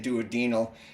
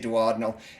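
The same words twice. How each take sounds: First: The stress is on the third syllable. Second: The stress is on the second syllable. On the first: The speaker calls it wrong. "I'll screw up and say duodenal" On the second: The speaker calls it right. "I did say duodenal"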